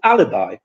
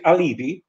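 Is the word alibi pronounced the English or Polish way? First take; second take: English; Polish. First: It is pronounced the English way. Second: It is pronounced the Polish way. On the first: "in English it's an alibi" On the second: "in Polish we say alibi"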